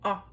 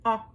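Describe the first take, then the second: Both takes have the same delivery.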